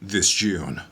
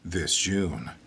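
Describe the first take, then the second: First: It ends with a firm, abrupt stop. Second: It trails off, drawn out and open. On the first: "a hard period" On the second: "an ellipses"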